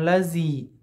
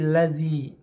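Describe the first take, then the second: First: The middle consonant is a plain z sound. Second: The middle consonant is made with tongue against teeth. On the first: The speaker calls it wrong. "bukan lazi" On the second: The speaker calls it right. "tapi lazi"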